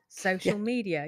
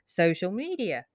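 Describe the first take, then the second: First: The stress falls on the word social. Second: The stress falls on the word media. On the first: The speaker calls it right. "media tends to be the lower word" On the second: The speaker calls it wrong. "You don't go social media"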